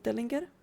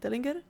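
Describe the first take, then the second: First: The name is said with a Nordic pronunciation. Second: The name is said with an English pronunciation. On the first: The speaker calls it right. "Let me have Nordic pronunciation on Nordic words" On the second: The speaker calls it wrong. "why do I keep the English pronunciation"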